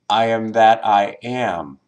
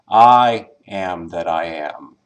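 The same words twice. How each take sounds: First: The stress is on the final am. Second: The stress is on the first word, I.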